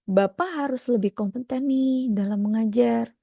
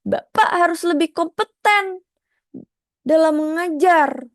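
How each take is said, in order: First: Said in the usual way. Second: Raised intonation. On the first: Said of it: "manage intonasi". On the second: Shown as a demonstration. Teacher contrasting a pushy intonation with a calm one. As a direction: push it up to sound demanding. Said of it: "Jadi beda".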